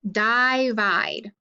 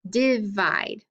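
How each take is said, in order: First: The first vowel is a long i sound. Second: The first vowel is a short i sound. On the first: "my I should be long" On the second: "make it a short I"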